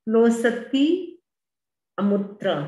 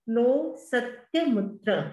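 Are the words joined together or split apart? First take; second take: split; joined. First: The words are separated into distinct parts. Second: The words run together as one joined form.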